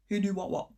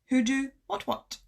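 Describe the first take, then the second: First: The T sounds at word ends are swallowed. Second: The T sounds at word ends are pronounced.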